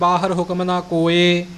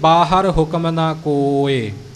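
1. ਆਖਰੀ ਸ਼ਬਦ ਲੰਬੇ 'e' ਸਵਰ ਨਾਲ ਖਤਮ ਹੁੰਦਾ ਹੈ। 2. ਆਖਰੀ ਸ਼ਬਦ ਛੋਟੇ 'i' ਸਵਰ ਨਾਲ ਖਤਮ ਹੁੰਦਾ ਹੈ। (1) "ਉਹ ਫਿਰ ਸਿਹਾਰੀ ਦੀ ਆਵਾਜ਼ ਨਹੀਂ, ਉਹ ਇੱਕ ਲਾਮ ਦੀ ਆਵਾਜ਼ ਆਉਂਦੀ ਹੈ" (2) "ਪਰ ਸਤਿਗੁਰਾਂ ਨੇ ਸਿਹਾਰੀ ਲਿਖੀ ਹੈ। ਇਸ ਲਈ"

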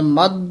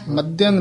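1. ਸ਼ਬਦ ਬਿਨਾਂ ਕਿਸੇ ਅਨੁਨਾਸਿਕ ਸਵਰ ਦੇ ਖ਼ਤਮ ਹੁੰਦਾ ਹੈ। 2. ਸ਼ਬਦ ਅਨੁਨਾਸਿਕ ਸਵਰ ਨਾਲ ਖ਼ਤਮ ਹੁੰਦਾ ਹੈ। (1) "ਮੱਧ ਇਸ ਤਰ੍ਹਾਂ ਬੋਲਣਾ" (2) "ਮੱਧਿਅੰ ਨਹੀਂ ਹੈ ਇੱਥੇ, ਟਿੱਪੀ ਨਹੀਂ ਹੈ"

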